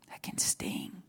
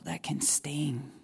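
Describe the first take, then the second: First: Lower, softer, unvoiced; whispered echo of the line. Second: Said in the usual way. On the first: Real, not acted. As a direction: breathe it out as an echo. Repeats phrase, now whispered.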